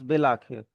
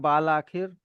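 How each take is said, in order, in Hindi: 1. पहला स्वर छोटी 'i' ध्वनि है। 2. पहला स्वर लंबी 'aa' ध्वनि है। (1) "बट इट बिकम्स बिल आखिर" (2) "यहाँ बिल आखिर लिखा हुआ है बाल आखिर"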